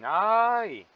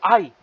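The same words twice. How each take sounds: First: It sounds mocking, teasing someone. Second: It sounds like suddenly remembering something.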